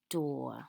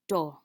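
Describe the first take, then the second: First: The vowel is an or sound. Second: The vowel is a short uh sound. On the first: The speaker calls it right. "we say this trigraph as or" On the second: The speaker calls it wrong. "It makes the short vowel sound uh"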